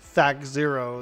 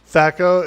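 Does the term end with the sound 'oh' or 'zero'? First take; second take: zero; oh. First: The term ends with the full word 'zero'. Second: The term ends with a short 'oh' sound. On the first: The speaker calls it right. "probably how you're really supposed to pronounce it" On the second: The speaker calls it wrong. "It's not even uh, O, actually"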